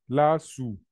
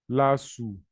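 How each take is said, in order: Both takes have the same delivery.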